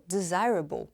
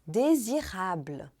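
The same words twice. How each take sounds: First: Desirable à inglesa, "dizáirabol"; English pronunciation. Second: Désirable com R francês e "a" bem aberto, devagar; désirable com final "ablə"; French pronunciation. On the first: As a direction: desirable com final "abol". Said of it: "em inglês deu". (pronúncia inglesa de desirable) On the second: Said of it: "com som de A bem aberto". (pronúncia francesa de désirable, devagar) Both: Shown as a demonstration.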